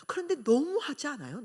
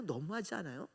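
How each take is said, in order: First: "그런데" hit with a falling, slightly raised voice; indignant appeal. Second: "너무하지" said much lower and softer, falling; quiet echo. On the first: Preacher challenging the congregation, indignant. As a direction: push the question at the audience. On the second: Preacher repeating the question to herself, hushed. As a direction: let the question sink in softly. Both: Acted. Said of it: "repeated appeal".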